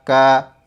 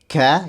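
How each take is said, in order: First: The k has no audible air after it. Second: The k is followed by a heavy burst of air. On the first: "bukan juga tidak ada sama sekali" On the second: "bukan ka, jadi bukan berlebihan juga"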